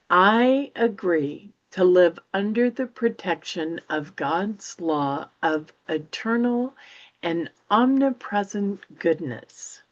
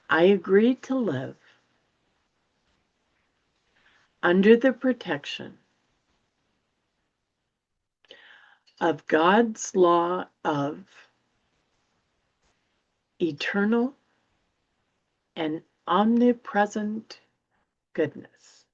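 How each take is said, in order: First: It is read at normal speed. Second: It is read more slowly.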